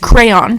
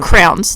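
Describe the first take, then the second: First: It is said as two syllables, cray-on. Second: It is said as one syllable, like crown. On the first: The speaker calls it right. "I am aware it's crayon" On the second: The speaker calls it wrong. "like a crown that goes on your head. And I know it's wrong"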